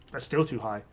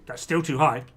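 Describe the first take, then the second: First: Quieter repeat. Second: Said in the usual way. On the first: Shown as a demonstration. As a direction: repeat "That's still too high." lower and softer.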